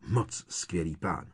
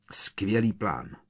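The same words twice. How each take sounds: First: MOC drawn out with mild bitterness; sarcastic, stress on MOC. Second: Understated, sarcastic bark; slow, mildly biting jab; barked in anger. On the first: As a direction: lean sarcastically on "Moc", a little lower-key. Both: A narrator's reading. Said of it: "štěkl na Hermionu".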